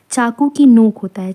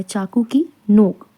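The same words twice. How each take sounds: First: Said in the usual way. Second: Whispered. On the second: Shown as a demonstration. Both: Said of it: "teacher repeats phrase for class".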